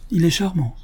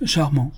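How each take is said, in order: First: A gentle high admiring "charmant"; lightly voiced fond praise; sincere and kindly. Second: "Charmant" repeated absently, just parroting; mild absent echo. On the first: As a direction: say it as a kind old lady who means it. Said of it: "bienveillante et sincère". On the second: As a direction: echo the word back without thought. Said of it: "répéta monsieur Dumanet comme un écho". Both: A narrator's reading.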